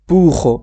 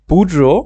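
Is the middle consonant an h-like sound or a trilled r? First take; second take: h-like; trilled r. First: The middle consonant is a breathy h-like sound. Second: The middle consonant is a rolled r sound. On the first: "যদি আপনি পুহো উচ্চারণ করতে না পারেন" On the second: "double আর উচ্চারণ যেভাবে হয় বুড্রো এভাবে বললেন সমস্যা নেই"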